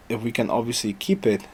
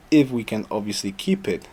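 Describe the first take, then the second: No difference in how they are said.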